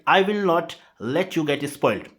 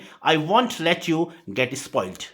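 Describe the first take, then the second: First: 'Will not' is said as two full words. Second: 'Will not' is contracted into one word, 'won't'.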